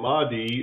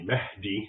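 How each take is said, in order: First: It is said with an anglicized English pronunciation. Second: It is said with a native Arabic pronunciation. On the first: The speaker calls it wrong. "an English speaker would pronounce it" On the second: The speaker calls it right. "it's really Mahdi"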